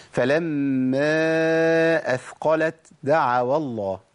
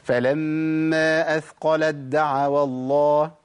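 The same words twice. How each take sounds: First: أثقلت with a breathy separate ت before دعوا; hams, wrong. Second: أثقلت دعوا as athqalad-da'awa, slow chanted recitation; idgham into dal. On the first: Teacher showing what is not allowed, أثقلت with released ت. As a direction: recite slowly, puffing the ت of أثقلت before the د. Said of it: "أنا كده عملت همس". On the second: Teacher reciting the first place, أثقلت دعوا drawn out, merged. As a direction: merge ت into a doubled د in أثقلت دعوا, long held vowels. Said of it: "ما ينفعش". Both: Shown as a demonstration.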